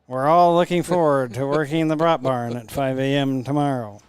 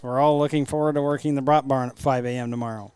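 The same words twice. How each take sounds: First: It is said with eager, sincere enthusiasm. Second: It is said flatly, without enthusiasm.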